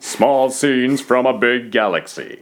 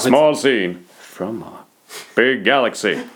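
First: Every word is said with equal strength. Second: The word 'from' is said weaker than others. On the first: The speaker calls it wrong. "Fast du sa alla ord lika starkt" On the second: The speaker calls it right. "Där satt den"

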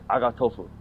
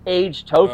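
First: It is said in a Japanese-sounding accent. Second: It is said in a plain English accent.

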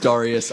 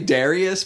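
First: The first syllable does not sound like 'dairy'. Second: The first syllable sounds like 'dairy'. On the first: "Duncan says Darius" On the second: "that makes it sound like it's like a dairy farm"

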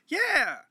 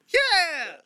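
First: It is said less loudly. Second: It is said much more loudly.

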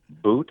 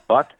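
First: The name rhymes with the word boot. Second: The name rhymes with the word but.

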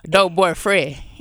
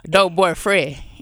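First: The word is chopped in an Atlanta accent. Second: The same.

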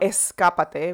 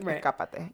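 First: The s sound is fully pronounced as a hiss. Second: The s sound is replaced by a breathy aspiration. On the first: This is how other Spanish speakers say it. "We don't say escápate" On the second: This is how Venezuelans say it. "we say like escápate"

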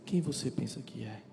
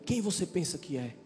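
First: It is said in a calm, tender tone. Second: It is said in a harsh, rude tone.

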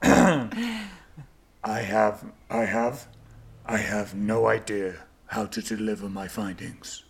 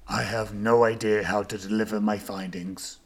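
First: It sounds very sincere and heartfelt. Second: It sounds only mildly sincere.

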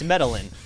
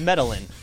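First: The double L is said like an English L. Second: The double L is said like an English L.

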